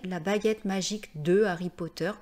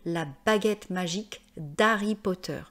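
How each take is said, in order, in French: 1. Le 'de' se prononce en entier devant Harry. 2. Le 'de' s'élide en d' devant Harry.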